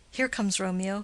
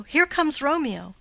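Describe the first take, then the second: First: Said in the usual way. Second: Excited call. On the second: Acted. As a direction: announce him eagerly as he comes into view. Benvolio spots Romeo arriving.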